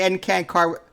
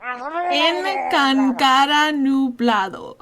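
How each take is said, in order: First: Choppy, halting mock Spanish; mocking imitation. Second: "En Cancara nublado" spoken slowly, each syllable spelt out; slow teacher model of "En Cancara nublado"; over enunciating. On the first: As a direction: imitate her clumsy Spanish syllables. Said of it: "that's what you sound like when you say". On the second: Shown as a demonstration. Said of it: "repeat after me".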